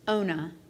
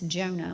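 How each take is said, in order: First: The name starts without a J sound. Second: The name starts with a J sound. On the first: The speaker calls it right. "it's correctly pronounced Ona" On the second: The speaker calls it wrong. "we pronounce the J and it's Jonah"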